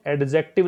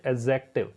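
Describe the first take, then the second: First: एडजेक्टिव pronounced ed-jective, D sounded. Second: एडजेक्टिव with the D dropped entirely; without the d. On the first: Teacher showing students the wrong way, with the D sounded. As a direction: say एडजेक्टिव with a clear D before the J. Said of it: "डी को गायब कर दो". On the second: Teacher showing students the right way, D left out. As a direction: say एडजेक्टिव as "ejective", no D sound. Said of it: "डी नहीं है, ऐसा पढ़ना है ना". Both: Shown as a demonstration.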